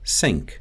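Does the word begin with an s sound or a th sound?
s. It begins with an s sound. "it often shifts toward an s sound"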